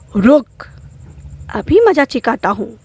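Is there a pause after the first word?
yes. The first word is stressed, with a pause after it. The listener is being threatened. "अगर मैं इस पे ही जोर दूँ"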